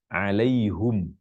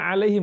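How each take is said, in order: First: It ends in hum, with u before m. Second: It ends in him, with a closed final m. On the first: "baca alaihum, bukan him" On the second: "kita baca alaihim bersukun mimnya"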